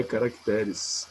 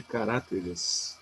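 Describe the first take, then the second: First: Slow "caracteres" with the stress on TÉ. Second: "caráteres" with the stress on RÁ. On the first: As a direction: stretch out ca-rac-TÉ-res, landing on TÉ. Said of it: "em caracteres é o té". ("caracteres" devagar, tônica no TÉ) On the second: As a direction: hit RÁ in "caráteres", the mistaken plural. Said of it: "em caráter é o ra". ("caráteres" com a tônica no RÁ) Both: Shown as a demonstration.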